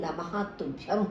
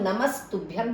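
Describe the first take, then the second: First: The words are separate with a final h sound. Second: The words are joined with an s sound. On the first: "वैसे ये नमः तुभ्यम होता है" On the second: "हम नमस्तुभ्यम भी पढ़ सकते हैं"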